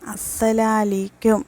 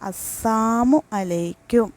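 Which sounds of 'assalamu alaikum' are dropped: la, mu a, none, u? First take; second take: mu a; la. First: The mu a sounds are dropped. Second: The syllable la is dropped from salamu. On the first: May shame be upon you. "മൂന്നാമത്തത് അസ്സലാലീക്കും" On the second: May death come upon you. "രണ്ടാമത്തത് അസ്സാമു അലൈക്കും"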